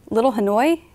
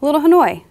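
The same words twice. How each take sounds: First: Puzzled question with a rising end; lightly voiced confusion, lifting at the end; confused echo. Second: Pleased repeat, higher and falling at the end; approving echo that settles downward; smiling approval. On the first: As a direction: repeat it back, not understanding. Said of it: "Jeremy looked confused". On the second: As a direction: try the name out with a smile. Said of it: "He smiled again". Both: A narrator's reading.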